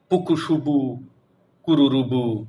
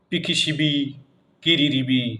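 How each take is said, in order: First: Every vowel is replaced with a u sound. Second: Every vowel is replaced with an i sound. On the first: "রস্যুকার দিয়ে" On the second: "রস্যিকার দিয়ে"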